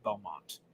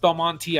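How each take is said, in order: First: The name ends on the t, no final vowel. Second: The name ends with a sounded final vowel. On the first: "a lot of people just say Belmont" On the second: "which I've always pronounced Belmonte"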